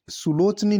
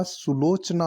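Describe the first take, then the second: First: सुलोचनी ending in ee; wrong form. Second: सुलोचना ending in long aa; correct form. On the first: Teacher rejecting the wrong form: सुलोचनी with final ee. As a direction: say "su-loch-nee" for सुलोचनी. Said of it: "नहीं होता". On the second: Teacher giving the right form: सुलोचना with final aa. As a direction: say "su-loch-naa" for सुलोचना. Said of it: "होता है". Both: Shown as a demonstration.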